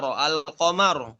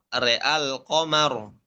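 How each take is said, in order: First: Said in the usual way. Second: RE'AL QAMAR slowly, e only on the r; imalah when joined. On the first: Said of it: "pada kata". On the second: Shown as a demonstration. Teacher showing the joined reading, imalah in RE'AL. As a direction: say "re'al qamar" with re, keeping al open. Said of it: "waslan imalatu fathatur ra".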